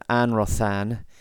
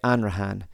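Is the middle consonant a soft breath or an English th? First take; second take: th; breath. First: The middle consonant is an English th sound. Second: The middle consonant is only a soft breath. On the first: The speaker calls it wrong. "rather than Anrothan" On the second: The speaker calls it right. "you just breathe right past it"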